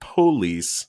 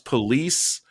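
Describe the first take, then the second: First: The first syllable 'po' is strongly emphasized. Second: The word is said plainly, first syllable unstressed. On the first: The officer really cares and wants to make a difference. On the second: The officer is just doing the job.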